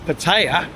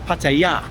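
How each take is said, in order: First: It is said with an American pronunciation. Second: It is said with a Thai pronunciation. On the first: "the way the Americans go" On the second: "the way the Thais say it"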